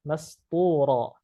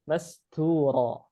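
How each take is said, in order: Both takes have the same delivery.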